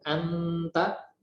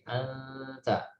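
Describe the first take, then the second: First: The n is fully pronounced with the tongue pressed. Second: The n is hidden in a nasal hum. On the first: The speaker calls it wrong. "an kita tempelkan langsung anta, maka itu keliru" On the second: The speaker calls it right. "didekatkan, jangan jauh-jauh"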